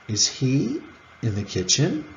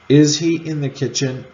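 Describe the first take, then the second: First: The pitch has two separate peaks. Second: The pitch has a single peak.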